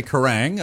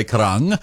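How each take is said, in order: First: "Karang" with a flat a, as in rang; mistaken vowel. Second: "Karang" with an open ah, like Karung; corrected vowel. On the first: Host denying he mispronounced the station name, mistaken vowel. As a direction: say "Karang" to rhyme with hang. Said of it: "I didn't say Karang". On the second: Host defending his Maori pronunciation to caller, corrected vowel. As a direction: say "Karang" with the ah vowel, rhyming with rung. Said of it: "I did say Karang". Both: Shown as a demonstration.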